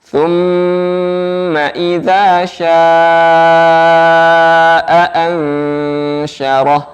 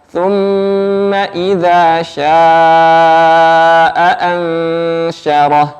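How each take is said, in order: The two takes are said the same way.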